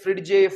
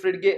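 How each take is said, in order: First: It ends in a 'j' sound plus a vowel. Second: It ends in a hard 'g' plus a vowel. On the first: "इसमें हम डी pronounce नहीं करते। आपने इसे फ्रिडजे फ्रिडगे ऐसा कुछ नहीं बोलना है" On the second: "इसमें हम डी प्रोनाउंस नहीं करते। आपने इसे फ्रिडजे फ्रिडगे ऐसा कुछ नहीं बोलना है"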